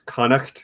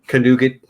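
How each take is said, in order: First: The name is given a careful, serious pronunciation attempt. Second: The name is given a deliberately mangled, joking pronunciation. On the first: It is a sincere attempt at the proper name. The speaker calls it right. "the closest that I'm probably going to get" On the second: It teases someone about the name. The speaker calls it wrong. "couldn't resist a good troll"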